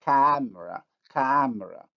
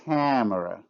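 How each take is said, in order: First: Camera with a clean oral vowel; no nasalization. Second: Camera with a nasal first vowel; nasalized. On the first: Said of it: "without nasalization". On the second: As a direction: let the a of camera go through the nose. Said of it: "With nasalization". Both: Shown as a demonstration.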